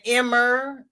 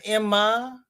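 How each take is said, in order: First: "Emmer" ending in an R sound. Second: Said in the usual way. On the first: Shown as a demonstration. A viewer explaining local names, saying Emmer with an R. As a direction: say "Emmer" with an R at the end. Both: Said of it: "instead of Emma".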